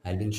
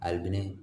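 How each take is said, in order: First: The name ends short and clipped. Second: The end of the name is drawn out long. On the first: The speaker calls it right. "ആൽബിൻ ഷോർട്ടാണ്" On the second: The speaker calls it wrong. "Just നീട്ടുന്നു"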